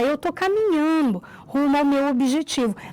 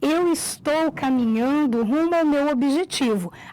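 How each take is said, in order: First: Some sounds are swallowed and words run together. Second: Every sound of each word is clearly pronounced. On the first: The speaker calls it wrong. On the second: The speaker calls it right.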